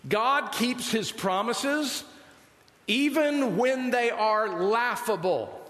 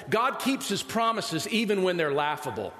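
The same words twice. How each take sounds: First: "God keeps his promises even when they are laughable" said slowly, each word weighted; slow emphatic restatement. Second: Said in the usual way. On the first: Shown as a demonstration. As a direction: hammer home "God" and "even" at half speed.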